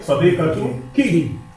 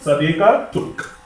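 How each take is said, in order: First: The word ends with a pronounced final vowel. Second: The word ends on a consonant, vowel dropped. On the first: The word is said in the middle of speech. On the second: The word comes at a stop at the end of the sentence.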